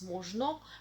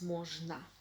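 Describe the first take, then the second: First: Every vowel is said fully, as spelled. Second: The word is said in its natural reduced form. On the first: "It is written as можно" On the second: "pronounced as можно"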